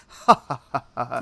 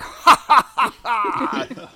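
First: Measured, restrained mock laugh; imitating a sophisticated gentleman's laugh; dignified laugh. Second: Much higher, much louder forced cackling laugh; bare the teeth and cackle like a bad actor; hammed-up fake laughter. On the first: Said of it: "a very dignified, sophisticated laugh". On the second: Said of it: "he bares his teeth and he's like".

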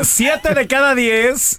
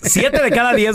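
First: Siete de cada diez stretched slowly; slow drawn-out. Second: Said in the usual way. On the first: Shown as a demonstration. (alargando siete de cada diez despacio)

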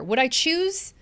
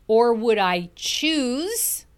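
First: "choose" lifted high and stressed; "choose" rings out as the key word. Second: "choose" drawn out slowly and held; stress on choose. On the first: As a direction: pitch up on "choose" to hit it. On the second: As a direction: lean on the word "choose", stretch it. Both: Shown as a demonstration. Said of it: "choose is a very important word here".

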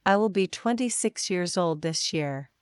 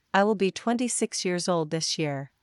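The two takes are said the same way.

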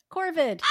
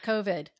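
First: "Corvid" with a clear r, KOR-vid, stressed and raised; correct pronunciation. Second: "covid" said as the virus, with no r: KO-vid; "covid", the illness word, no r sound; wrong word. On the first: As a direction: lean on the r in "Corvid". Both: Shown as a demonstration. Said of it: "Not covid".

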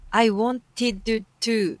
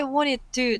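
First: "I wanted to" slow and laboured, no sounds dropped; every sound pronounced. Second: "wanted to" run together, middle t dropped; sounds dropped. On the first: Teacher shows the awkward undropped version, every sound pronounced. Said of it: "脱落して言っていいものを、 わざわざ". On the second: Teacher shows the easier version, sounds dropped. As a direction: let the t go in "wanted to". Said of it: "あそこ脱落して". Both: Shown as a demonstration.

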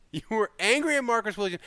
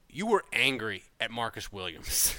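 First: Higher, with the weight on "angry" and a falling end; "angry" pitched up and stressed, the rest falling away; amused emphasis. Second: Said in the usual way. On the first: Shown as a demonstration. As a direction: land hard on "angry", half laughing. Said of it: "repeated, amused emphasis". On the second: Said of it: "repeats the line with emphasis".

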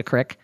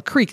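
First: "crick" rhyming with "brick"; short-vowel "crick" for creek; rural crick. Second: "creek" rhyming with "seek"; long-vowel "creek"; standard creek. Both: Shown as a demonstration. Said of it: "they called it a crick".

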